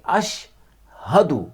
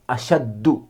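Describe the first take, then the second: First: A clear h sound comes before the d. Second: The middle sound is a doubled d. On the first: The speaker calls it right. "बल्कि साफ पढ़ेंगे अशहदु" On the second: The speaker calls it wrong. "इसे अशद्दु नहीं पढ़ेंगे"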